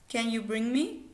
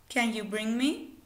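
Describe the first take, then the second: Both takes have the same delivery.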